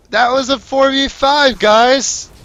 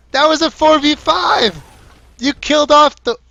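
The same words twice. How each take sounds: First: High, loud, slow outburst, weight on "five"; incredulous shout. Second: "four" punched very high and loud; stress on FOUR. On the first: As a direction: yell "four v five" leaning on "five". Caster ranting at losing team. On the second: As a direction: hit "four" hard in a yell. Caster repeats rant. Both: Real, not acted.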